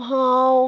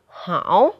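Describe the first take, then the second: First: The syllable is said on a level pitch. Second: The syllable is said with a dipping pitch.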